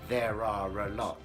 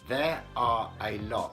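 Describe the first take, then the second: First: An R sound links the words together. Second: The words are kept separate with no R sound.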